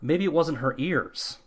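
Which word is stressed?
ears. The stress falls on the word ears.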